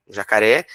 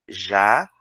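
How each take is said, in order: First: Said in the usual way. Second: "Ja-ca-ré" broken into three separate beats; teacher segmenting the word for the class; syllables split. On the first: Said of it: "eu posso segmentar jacaré em sílaba". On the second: Shown as a demonstration. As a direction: tap out each syllable of "Ja-ca-ré". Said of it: "Três sílabas".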